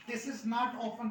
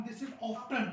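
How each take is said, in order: First: Often said with silent t, drawn out; teacher shows how not to say often, slowly; wrong way shown, slow. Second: Often said with a clear t sound; teacher models the correct often; right way shown. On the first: Teacher demonstrating the wrong often, slow. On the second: Teacher to students, correct often with t sounded. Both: Shown as a demonstration.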